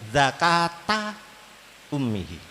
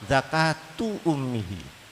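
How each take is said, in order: First: The first word ends in an 'a' vowel. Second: The first word ends in a 'u' vowel. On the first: The fetus must be slaughtered just as its mother is. "pakai nasab" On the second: Slaughtering the mother also covers the fetus. "dibaca rafa"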